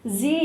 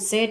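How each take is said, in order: First: The letter is said with an American pronunciation. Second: The letter is said with a British pronunciation. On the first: "Z is American" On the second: "Z is British"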